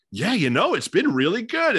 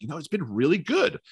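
First: Much higher-pitched, surprised imitation. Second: Higher, mildly surprised retold reply; slight surprise. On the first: Monotone player asked about the season, audibly surprised. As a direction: play up the pleasant surprise in a quote. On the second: Player answering how he is enjoying this, slightly surprised. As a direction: imitate an athlete's understated surprise. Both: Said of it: "almost sense of surprise in his voice".

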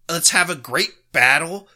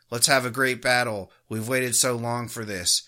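First: Quoting it back with an incredulous rise, louder; mocking disbelief. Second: Said in the usual way. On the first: Host throwing the ref's phrase back, mocking. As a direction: scoff at the words as you repeat them. Mocking the referee's quoted line. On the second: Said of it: "you hear Kelly Sutherland".

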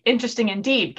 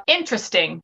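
First: A hint of chirpy "Interesting indeed"; mild chirp, gently pleased. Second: Dry. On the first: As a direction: lightly perk up on "Interesting indeed". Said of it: "Karis chirped". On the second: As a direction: say "Interesting" drily, unimpressed. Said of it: "he said dryly". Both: A narrator's reading.

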